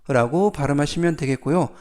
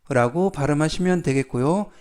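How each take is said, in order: The two takes are said the same way.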